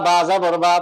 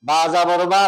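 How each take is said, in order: No difference in how they are said.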